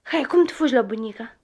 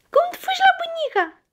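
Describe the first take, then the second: First: Said in the usual way. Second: Very high, quick coaxing question. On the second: Real, not acted. Parent asking a child how they run to grandma, high playful coaxing.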